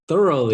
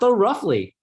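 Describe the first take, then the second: First: The first part sounds like 'thur'. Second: The first part sounds like 'though'.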